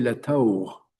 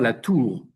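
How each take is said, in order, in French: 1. La voyelle dans tour est une diphtongue glissante. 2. La voyelle dans tour est une seule voyelle simple. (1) "il y avait des diphtongues en français. ... on disait la taur" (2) "On ne disait pas la tour"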